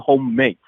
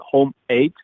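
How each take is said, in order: First: The two words run together quickly into one. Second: The two words are said separately and clearly. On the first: "if you pronounce it faster, it would be Homemate" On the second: "I think you will pronounce it Home Eight"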